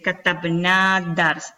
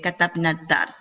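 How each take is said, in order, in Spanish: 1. La vocal final de katabna se pronuncia larga. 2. La vocal final de katabna se pronuncia corta. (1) "No podemos decir" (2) "queda también como si fuese corta"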